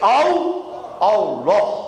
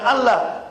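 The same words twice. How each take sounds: First: The l sound is doubled and held. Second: The l sound is short and single. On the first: The speaker calls it right. "Dia menggunakan lam tasdid" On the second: The speaker calls it wrong. "bukan Allah"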